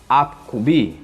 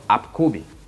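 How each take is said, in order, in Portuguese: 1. A sílaba final tem um leve acento. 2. A sílaba final não tem acento. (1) "tente dar uma leve entonação na última sílaba" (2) "e não apkubi"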